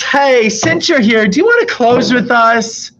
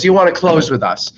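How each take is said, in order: First: High, slow, syrupy boss asking a favour; sugary boss. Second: Said in the usual way. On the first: Retold or imitated. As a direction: sweeten it like a boss buttering you up. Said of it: "my boss comes up to me and says". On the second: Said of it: "She says".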